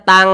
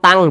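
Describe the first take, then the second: The two takes are said the same way.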